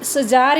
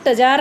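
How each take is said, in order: First: The word begins with an s sound. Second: The word begins with a t sound. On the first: "इसको आप सजार या टजार नहीं बोलेंगे" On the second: "इसको आप सजार या टजार नहीं बोलेंगे"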